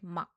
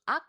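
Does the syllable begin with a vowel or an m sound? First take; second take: m sound; vowel. First: The syllable begins with an m sound. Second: The syllable begins directly with a vowel. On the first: "ak sounds like 막" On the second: "originally it's um and ak"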